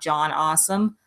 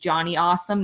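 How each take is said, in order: First: The final E of the first name is silent. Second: The final E of the first name is pronounced. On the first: The speaker calls it wrong. "I thought the E was silent" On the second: The speaker calls it right. "his name is Johnny Awesome"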